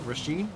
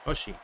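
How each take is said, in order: First: The name begins with an R sound. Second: The name begins without any R sound. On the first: The speaker calls it wrong. "Am I saying it right now?" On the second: The speaker calls it right. "So the R is silent"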